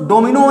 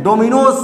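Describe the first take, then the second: First: डोमिनो ending on an open O; no final sibilant. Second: डोमिनोज ending in an S or Z sound; final sibilant sounded. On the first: Teacher showing students the form not used, डोमिनो without final sibilant. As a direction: drop the final S or Z sound from डोमिनो. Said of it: "डोमिनो नहीं बोलते हैं". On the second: Teacher showing students the correct game name, डोमिनोज with final sibilant. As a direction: close डोमिनोज on a sibilant after the O. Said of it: "डोमिनोज बोलते हैं". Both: Shown as a demonstration.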